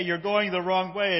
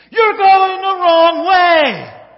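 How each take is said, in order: First: Said in the usual way. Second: Very loud, high, drawn-out holler; full yell. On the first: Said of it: "he hears him say". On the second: Acted. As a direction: yell a warning across the highway. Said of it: "yells over to John Candy".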